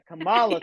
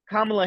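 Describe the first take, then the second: First: The stress is on the second syllable. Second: The stress is on the first syllable. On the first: "she puts the emphasis on the second syllable" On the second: "she puts the emphasis on the first syllable"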